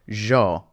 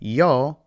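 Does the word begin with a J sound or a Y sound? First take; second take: J sound; Y sound. First: The word begins with a J-like sound. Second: The word begins with a soft Y sound.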